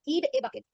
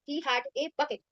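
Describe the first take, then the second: First: He had is shortened to one syllable, he'd. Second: He had is said as two full words.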